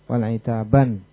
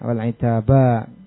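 First: The word ends with an added n sound. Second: The word ends on a long open vowel. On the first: "hendak memutus tarunnum, ... maka ditandakan nun gitu" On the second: "dengan mad wal itaba"

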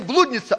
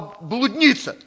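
First: The word is stressed the local way. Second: The word is stressed the standard Russian way. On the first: The speaker calls it wrong. "Не блудница" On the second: The speaker calls it right. "а блудница"

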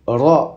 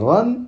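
First: The syllable ends on a vowel without 'n'. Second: The syllable ends with an added 'n' sound. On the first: The speaker calls it right. "on dit را" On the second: The speaker calls it wrong. "et non pas ran"

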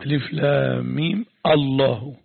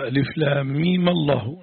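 First: A glottal stop starts the word Allah. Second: Meem takes an 'a' vowel linking into Allah. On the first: It is read as if pausing after the letters. "بقطع ألف الوصل" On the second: It is read continuously without pausing. "فتح"

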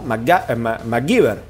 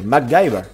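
First: The name is read with Spanish pronunciation. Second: The name is said with English pronunciation. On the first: "como lo leía en latinos. Entonces lo pronunciaba como MacGyver" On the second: "se pronuncia en inglés como MacGyver"

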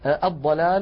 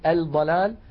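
First: The L is merged into a doubled D. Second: The L is clearly pronounced before the D. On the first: The speaker calls it right. "الضاد من كلمة ضف مثلا الضلال" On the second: The speaker calls it wrong. "ولا نقول الضلال"

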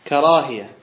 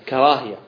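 No difference in how they are said.

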